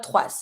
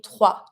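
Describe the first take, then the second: First: Trois with the final S pronounced, "twahs"; wrongly sounded S. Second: Trois said with a silent S, ending on an open wa; silent final S. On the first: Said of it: "we never pronounce the S". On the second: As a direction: end trois on the vowel, no S. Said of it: "be mute". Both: Shown as a demonstration.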